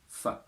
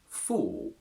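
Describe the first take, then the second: First: The word has a reduced schwa vowel. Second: The word has a full, strong vowel. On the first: "we go weak" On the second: "we must use for in its strong form"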